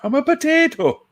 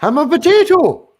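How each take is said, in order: First: Silly high voice. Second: Squeaky high potato voice; silly high voice. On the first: Repeating the silly potato line. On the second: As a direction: pitch way up, goofy. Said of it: "That's the best way to say it". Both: Pretend.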